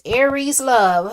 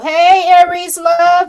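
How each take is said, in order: First: Said in the usual way. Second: High, loud and slow hey to a viewer; greeting a viewer in chat with a loud, slow hey. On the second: Real, not acted. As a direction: call out her name with a big welcome.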